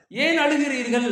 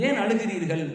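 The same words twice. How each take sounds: First: A pleading second ask; pressing repeat. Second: Said in the usual way. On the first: Shown as a demonstration. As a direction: ask again with more urgency. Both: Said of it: "repeated question".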